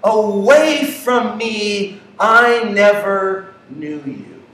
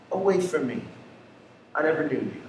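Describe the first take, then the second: First: Slow, deliberate words of judgment; slow, weighty rejection; slow verdict. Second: Soft, low, final words of judgment; a hushed, solemn rejection; hushed verdict. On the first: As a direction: draw out each word like a final sentence. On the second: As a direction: let the sentence fall quiet and heavy. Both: Retold or imitated.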